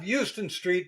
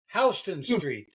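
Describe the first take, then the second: First: Houston is said the Texas way. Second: Houston is said the New York way.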